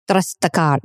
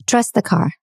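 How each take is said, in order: First: Put-on Italian accent slipping into Russian; badly faked Italian, coming out Russian; failed Italian accent. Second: Said in the usual way. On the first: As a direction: try Italian and land on accidental Russian. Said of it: "I started to sound Russian". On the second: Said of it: "that's so bad. He said".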